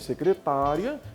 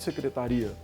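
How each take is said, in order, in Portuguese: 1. A tônica cai na sílaba 'ta'. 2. A tônica cai na sílaba 'ri'. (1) "Secretária é a pessoa que trabalha dentro do setor" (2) "Secretaria é o setor"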